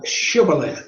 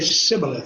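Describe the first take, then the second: First: The word begins with a 'sh' sound. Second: The word begins with an 's' sound. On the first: This is the password as the locals say it. The speaker calls it right. "The Ephraimites could not say uh" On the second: This marks the speaker as an outsider. The speaker calls it wrong. "They would say sibboleth. They could not pronounce the sh"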